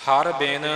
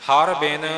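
Both takes have the same delivery.

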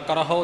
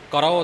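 First: An h sound comes after the r. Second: The r is followed directly by o. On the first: "ਕਰਹੋ ਨਹੀਂ ਬੋਲਣਾ" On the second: "ਕਰੋ ਨਹੀਂ ਬੋਲਣਾ"

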